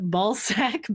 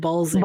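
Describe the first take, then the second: First: The second syllable sounds like 'sack'. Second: The second syllable sounds like 'zick'. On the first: The speaker calls it wrong. "it's probably not pronounced this way" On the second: The speaker calls it right. "It's probably pronounced like Balzic"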